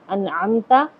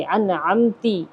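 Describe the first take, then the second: First: انعمتا with the ain from the throat and zabar at the end; انعمتا, ain properly produced; correct pronunciation. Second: انعمتی with the final vowel changed to zer, said very slowly; انعمتی slow and deliberate, wrong vowel; wrong pronunciation. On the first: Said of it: "عین نکال کر کے پڑھا جائے گا". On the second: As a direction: drag out انعمتی ending in ee, the mistake. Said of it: "اعراب بدل دیں". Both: Shown as a demonstration.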